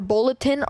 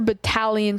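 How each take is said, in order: First: The word is said like bulletin. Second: The word is said like battalion. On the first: The speaker calls it wrong. "I didn't know how to say battalion, so I always said like bulletin" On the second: The speaker calls it right. "Not how I pronounced it, by the way"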